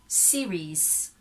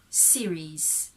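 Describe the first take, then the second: No difference in how they are said.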